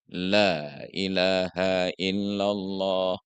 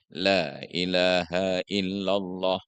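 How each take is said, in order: First: The vowel in Allah is held long. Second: The long vowel in Allah is cut short. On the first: The speaker calls it right. "Karena Allah lafzul jalalah dia satu alif" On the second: The speaker calls it wrong. "Allah yang panjang satu alif minimal dibaca pendek"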